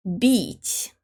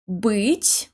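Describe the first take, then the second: First: "бить" with a soft b and a front, bright и; "бить" said like beet, short, with a palatal b. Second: "Быть" said bit with the tongue pulled back; hard b. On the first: Teacher says the soft "бить" to contrast the pair. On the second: Teacher says the hard "Быть" to contrast the pair. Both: Shown as a demonstration. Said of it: "Here's another pair".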